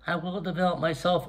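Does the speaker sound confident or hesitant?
hesitant. It is said in a weak, hesitant voice. The speaker is unsure of the commitment. The speaker calls it wrong. "It's just not"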